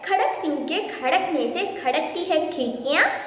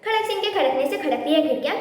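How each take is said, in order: First: The phrase is said at a normal pace. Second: The phrase is said quickly.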